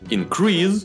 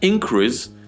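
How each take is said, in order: First: The stress is on the second syllable. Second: The stress is on the first syllable. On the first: It is the verb. "глагол increase, означающий вырастать" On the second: It is the noun. "И существительное increase"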